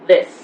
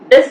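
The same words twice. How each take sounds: First: The th is soft with air between teeth. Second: The th is a hard stop-like sound. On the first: The speaker calls it right. "this becomes this" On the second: The speaker calls it wrong. "We never say this"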